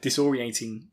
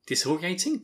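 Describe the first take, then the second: First: Disorienting said in full, dis-or-i-en-ting; corrected word. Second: Disoriating said with the middle dropped, as dis-or-i-ating; mispronounced word. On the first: Host correcting his own slip, careful. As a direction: carefully get Disorienting right this time. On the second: Host tripping over the word disorientating, unsure. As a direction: stumble through disoriating, unsure, rising. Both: Real, not acted. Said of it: "I am really not on top form today".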